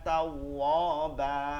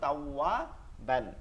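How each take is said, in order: First: The word ends with a lengthened vowel. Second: The word ends with an n sound. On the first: This is the form when stopping at the end of the verse. "এই সূরার শেষে গিয়ে দেখেন" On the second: This is the form when reading on without stopping. "কি ছিল?"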